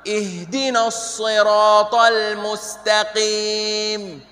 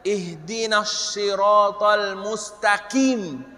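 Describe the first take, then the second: First: The s and q sounds are deep and emphatic. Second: The s and q sounds are plain, like s and k. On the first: The speaker calls it right. "yang benar" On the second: The speaker calls it wrong. "Tidak boleh baca ihdinas siratal mustaqim. Mustaqim salah"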